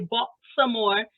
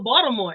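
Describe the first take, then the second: First: It is said with a clearly pronounced T. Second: It is said the local way, T dropped.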